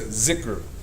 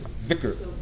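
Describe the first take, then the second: First: The word begins with a 'z' sound. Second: The word begins with a 'th' sound. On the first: The speaker calls it wrong. "Some other dialects they'll say" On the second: The speaker calls it right. "The correct pronunciation is dhikr"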